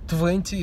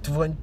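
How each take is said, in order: First: The t after the n is clearly pronounced. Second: The t after the n is dropped, like twenny. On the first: "the word twenty" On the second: "pronounced more like twenty"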